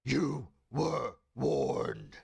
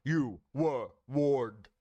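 First: Very slow, loud, booming threat. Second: Louder, slow booming threat. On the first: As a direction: boom it out like a god. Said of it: "so loud and booming". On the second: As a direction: boom it slowly and loud. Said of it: "I can do that better". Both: Acted.

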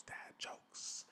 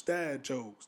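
First: Very faint distant whispered echo; fading whispered echo. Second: Breathy whispered echo of the title. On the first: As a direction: let the echo die away in a whisper. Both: Shown as a demonstration. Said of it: "That's how I'm gonna do the segment".

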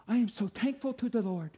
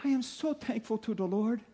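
First: Said in the usual way. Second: Put-on light Danish accent, grandmother's voice; a hint of an old Danish grandma. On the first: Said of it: "She said it much better than I could". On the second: Pastor imitating his grandmother in a light Danish accent. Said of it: "with this Danish accent".

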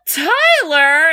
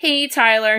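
First: High, louder, rising "Tyler?"; mock shocked question; shocked realization. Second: Said in the usual way. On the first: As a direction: ask it in disbelief. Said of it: "He's like". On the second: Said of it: "everyone's like".

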